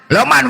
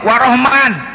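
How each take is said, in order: First: It is said Western-style, like Loman. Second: It is said Javanese-style, like Warohman.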